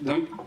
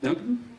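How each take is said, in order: First: The name is mumbled hesitantly, like a question. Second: The name is mumbled hesitantly, like a question.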